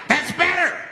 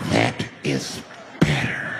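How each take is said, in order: First: High acted unhinged voice; high-pitched approval. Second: Deep, drawn-out acted satisfaction; low menacing approval. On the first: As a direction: pipe it up high, as the crazed man. The man answers the quieted crowd. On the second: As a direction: drop it low and let it linger. Repeats it to the quieted crowd.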